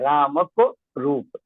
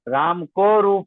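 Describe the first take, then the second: First: The vowel in 'ko' is cut short. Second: The vowel in 'ko' is held long. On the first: The speaker calls it right. "जब हमने को कहा तो ये मात्रा पतन" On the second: The speaker calls it wrong. "नहीं कहा जाएगा"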